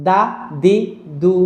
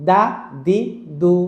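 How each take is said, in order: No difference in how they are said.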